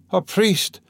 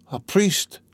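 First: Repeated plea, raised high and strained; a weak man calling out again; high, pained request; dying man's plea. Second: A raised, strained gasp for a priest; dying man rasping out a request; husky, high dying plea. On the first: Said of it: "the dying man said again". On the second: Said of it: "he articulated huskily". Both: A narrator's reading.

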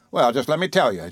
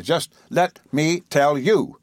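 First: Said in the usual way. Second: "Just let me tell you" drawn out slowly, each word weighted; slow, emphatic repeat. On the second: A narrator's reading. Repeated phrase, slowed and pressed.

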